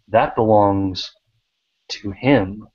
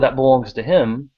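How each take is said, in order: First: It is said with pauses between the words. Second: It is said smoothly without pauses between words. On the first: It is a dramatic, important statement. The speaker calls it right. "suddenly it sounds very dramatic or important" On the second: It is an ordinary, unremarkable statement. The speaker calls it wrong. "that doesn't sound very impressive"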